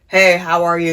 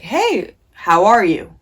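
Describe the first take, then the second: First: It is muttered as if to herself. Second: It is said as a direct greeting.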